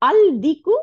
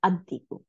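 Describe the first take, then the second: First: আল দিকু loud and high, L sounded; unassimilated article. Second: আর দিকু said as ad-diku, doubled D; joined ad-diku for আর দিকু, no L; assimilated lam. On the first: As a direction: call out আল দিকু with a clear L. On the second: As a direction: drop the L and lean on the D in আর দিকু. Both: Shown as a demonstration. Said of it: "এই যে become আর দিকু".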